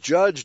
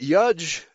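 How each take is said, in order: First: The word begins with a J sound. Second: The word begins with a Y sound. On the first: "the words judge" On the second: "the letter J would be replaced by the letter I"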